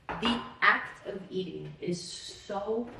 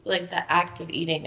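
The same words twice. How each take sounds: First: "act" stretched slow and weighted, whole phrase dragged; drawn out stress. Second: Said in the usual way. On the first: Shown as a demonstration. Complaining about eating, slowly stressing act. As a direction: drag out "the act of eating", leaning on "act".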